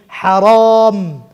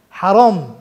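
First: حرام said very slowly and louder, lips shutting on the m; slow forceful حرام ending in a closed mouth; heavy drawn haram. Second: Said in the usual way. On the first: Shown as a demonstration. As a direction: press out حرام and seal it with the m. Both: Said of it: "هاتون گرتنی میم".

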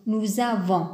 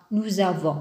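First: "Nous avons" with a linking z: nouz-avons; liaison. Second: "Nous avons" again with the z liaison, lower and calmer; liaison repeated. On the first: Teacher showing the liaison in "Nous avons" to learners, clear and careful. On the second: Teacher repeats "Nous avons" for learners, linking clearly. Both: Shown as a demonstration. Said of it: "on doit faire la liaison".

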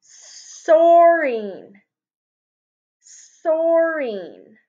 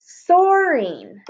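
First: Soaring drawn out long and slow; teacher stretching soaring for the class; stretched soaring. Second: Soaring said slowly, rising at the end; teacher sounding out soaring. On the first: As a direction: draw out soaring slowly. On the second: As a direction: model soaring for the class. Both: Shown as a demonstration. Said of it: "let's try the I N G".

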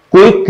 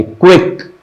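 First: क्विक as "ku-ik", without the W glide; wrong pronunciation. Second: क्विक as "kwek", with a rounded W glide; correct pronunciation. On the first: Teacher showing what not to say, glide-less "ku-ik" for क्विक. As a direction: say क्विक with a bare u-i, no "we". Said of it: "क्विक नहीं कहेंगे". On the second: Teacher giving students the right take, W glide in क्विक. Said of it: "वा वाला, क्विक". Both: Shown as a demonstration.

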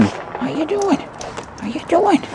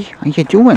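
First: Very high squeaky coo, much higher; squeaky pet voice. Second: High cooing question to a dog; pet voice. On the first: Cooing at Lewis the dog in a very high squeak. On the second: Cooing at Lewis the dog, asking how he's doing. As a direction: ask the dog up high and friendly. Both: Real, not acted.

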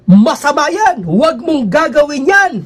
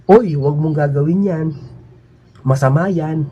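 First: Higher, louder, slow preaching cadence; minister's sing-song preaching. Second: Said in the usual way. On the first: Retold or imitated. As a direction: proclaim it like a minister from the pulpit. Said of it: "Ganun ang pagkasabi". (mataas at malakas na tono ng pangangaral) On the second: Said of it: "Hindi yung sinabi na".

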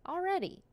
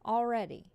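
First: "Already." pitched up high, falling; squeaky high "Already.". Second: Said in the usual way. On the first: Real, not acted. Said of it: "repeating word, higher". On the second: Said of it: "repeating word".

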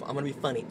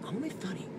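First: Muttered to himself, low and soft; quiet self-talk. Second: Near-whisper, much softer; whispered mantra. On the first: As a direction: say it softly as a private mantra. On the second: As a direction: breathe it out to yourself. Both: Shown as a demonstration. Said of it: "what I need to think to myself".

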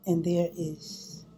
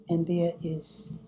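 The two takes are said the same way.

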